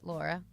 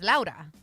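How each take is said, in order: First: The name is said with an English pronunciation. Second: The name is said with a Spanish pronunciation. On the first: "English is Laura" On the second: "in Spanish"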